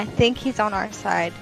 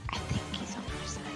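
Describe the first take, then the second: First: It is a theater whisper, loud enough to hear. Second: It is whispered too quietly to hear well.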